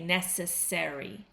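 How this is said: The ending is said with a full 'airy' sound. "in North American English we say airy"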